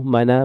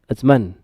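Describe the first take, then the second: First: The word ends with an added a vowel. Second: The word ends on the n with no vowel. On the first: The speaker calls it wrong. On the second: The speaker calls it right.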